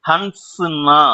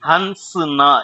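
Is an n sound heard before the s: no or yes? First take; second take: yes; yes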